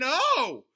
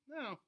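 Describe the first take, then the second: First: It sounds very excited. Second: It sounds somewhat disappointed.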